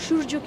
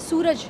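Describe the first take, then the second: First: It is said the Bengali way, ending in -u. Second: It is said in plain standard Hindi.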